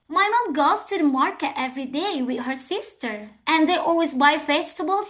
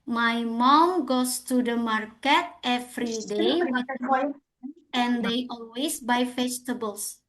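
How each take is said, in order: First: The sentence is read with lively, rising-falling intonation. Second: The sentence is read with flat, even intonation. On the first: The reader copies how actors in films say it. The speaker calls it right. "ikutin apa yang diucapkan si pemain filmnya" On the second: The reader has not practised by imitating native speakers. The speaker calls it wrong. "Kita mungkin membacanya seperti ini"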